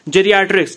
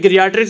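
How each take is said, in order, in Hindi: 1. यह शब्द J की आवाज़ से शुरू होता है। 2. यह शब्द कड़ी G की आवाज़ से शुरू होता है। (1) "करेक्ट प्रोनाउंसिएशन इसका जेरियाट्रिक्स होगा" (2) "गिरियाट्रिक्स भी बोल सकते हो"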